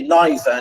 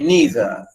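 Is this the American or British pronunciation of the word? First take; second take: British; American. First: It is said with the British pronunciation. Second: It is said with the American pronunciation. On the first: "I pronounce it in the English way. We say neither" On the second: "American, they say neither"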